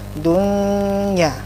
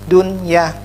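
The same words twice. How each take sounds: First: The n merges into the following y. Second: The n is pronounced clearly before the y. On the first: The speaker calls it wrong. "tidak bacanya dunya" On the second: The speaker calls it right. "jadinya jelas dunya"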